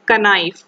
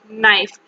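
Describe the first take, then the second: First: The word starts with a K sound before N. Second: The word starts with an N sound, no K. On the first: The speaker calls it wrong. "We will not pronounce it as knife" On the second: The speaker calls it right. "That is knife"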